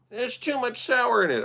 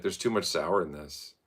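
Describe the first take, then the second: First: High, whiny mock of the complaint; mimicking a friend who sends his drink back; mocking the buddy. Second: Said in the usual way. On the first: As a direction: parrot the picky friend in a silly squeak. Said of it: "'Cause he did say light on the sour". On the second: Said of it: "he was like".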